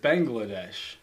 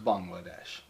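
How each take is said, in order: First: The first syllable sounds like 'bang'. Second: The first syllable sounds like 'bong'. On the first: The speaker calls it wrong. "I said it Bangladesh. ... Bang. Yeah, bang" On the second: The speaker calls it right. "This person thought it was Bangladesh. ... Instead of bong, instead of bang"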